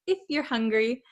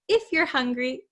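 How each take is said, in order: First: 'You are' is contracted into one short syllable. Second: 'You are' is contracted into one short syllable.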